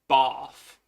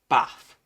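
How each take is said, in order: First: It is said in a southern English accent. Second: It is said in a northern English accent. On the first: "I sit next to people from the south" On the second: "because I'm from the north"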